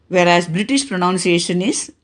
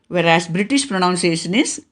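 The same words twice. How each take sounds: The two takes are said the same way.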